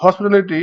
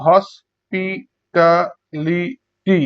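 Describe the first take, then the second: First: Said in the usual way. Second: hospitality very slowly in five beats; long gaps between syllables of hospitality. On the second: Shown as a demonstration. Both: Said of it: "পাঁচবার উচ্চারণ করা হয়".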